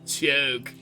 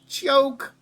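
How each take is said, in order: First: It is said in the speaker's normal voice. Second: It is said in a put-on cartoon voice.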